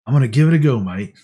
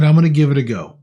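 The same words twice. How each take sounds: First: Mock-Aussie quote, dropping off on "mate"; hammy attempt at an Australian accent; bad Australian accent. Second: Said in the usual way. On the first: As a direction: put on a clumsy Australian accent. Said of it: "I may sound Australian on that one. ... my horrible accent". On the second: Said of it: "I may sound Australian on that one".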